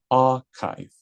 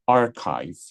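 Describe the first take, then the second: First: The R is silent and the vowel lengthened. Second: The R is pronounced strongly and roughly. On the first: "R tu tak bunyi, tapi R tu dia panjangkan" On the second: "they will pronounce R kasar"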